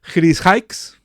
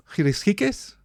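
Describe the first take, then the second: First: "Hikes" as one syllable, like English "hikes", questioning; trying a pronunciation. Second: "Hikes" in two syllables, "hee-kess", questioning; second pronunciation attempt. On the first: Host unsure of an Indian name, trying a pronunciation. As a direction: try "Hikes" rhyming with "bikes", rising. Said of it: "sorry for my pronunciation of Indian name". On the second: Host asking how to say a name, trying another pronunciation. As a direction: try "Hikes" as "ee-kess", voice raised and rising. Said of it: "how is the way you, I have to pronounce?". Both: Real, not acted.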